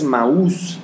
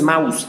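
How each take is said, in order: First: The stress falls on the 'u' sound. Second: The stress falls on the 'a' sound. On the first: The speaker calls it right. "con acento en la U" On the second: The speaker calls it wrong. "No es maus"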